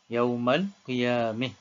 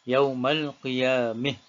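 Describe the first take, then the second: First: The final vowel leans toward an i sound. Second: The final vowel leans toward an i sound.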